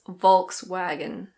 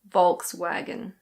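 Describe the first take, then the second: First: It is said in a British accent. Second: The same.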